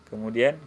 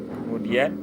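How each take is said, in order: Both takes have the same delivery.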